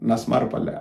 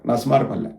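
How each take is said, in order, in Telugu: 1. ఆ పేరును చిన్నగా, కుదించి అంటారు. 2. ఆ పేరును చిన్నగా, కుదించి అంటారు.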